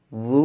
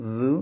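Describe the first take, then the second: First: "বু" as a heavy Arabic emphatic; full-mouthed, heavy "বু"; thick, heavy. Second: "বু" as a light Arabic syllable; light, unthickened "বু"; thin, light. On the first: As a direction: thicken the consonant and vowel of "বু". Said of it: "মোটা বুঝে যেতে হবে". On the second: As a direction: keep the consonant and vowel of "বু" thin. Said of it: "বু পাতলা". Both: Shown as a demonstration.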